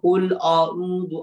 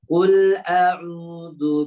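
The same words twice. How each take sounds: First: The vowel after qul sounds thick and rounded. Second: The vowel after qul sounds thin and light. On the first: The speaker calls it wrong. "jangan qul a'udzu o o a" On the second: The speaker calls it right. "tipiskan suaranya"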